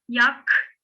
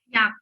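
First: The final k ends with an audible breath. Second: The final k ends with no audible breath. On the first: The speaker calls it wrong. "Okurken arkadaşlar yak demiyorum. En sonda nefes vermek yok" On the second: The speaker calls it right. "Yak diye okuyorum"

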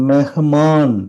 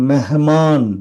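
Both takes have the same delivery.

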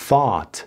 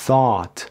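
No difference in how they are said.

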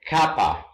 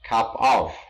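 First: The two words are blended into one word. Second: The two words are said separately and fully.

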